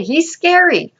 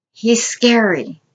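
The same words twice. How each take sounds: First: Pitched high, hammed-up spooky; spooky mock scary. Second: Said in the usual way. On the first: Preacher to congregation about the giant, mock spooky high. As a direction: say it like telling a ghost story.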